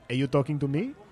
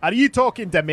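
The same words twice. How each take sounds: First: It is said in a voice like the other player's. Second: It is said in a Shrek-like character voice.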